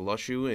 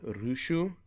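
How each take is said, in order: First: The name begins with an L sound. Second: The name begins with an R-like sound. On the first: This is the expected English pronunciation. "I'm thinking it's going to be Lushu or Lushu in in uh, English" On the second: This is the Japanese pronunciation. "in Japanese it's pronounced"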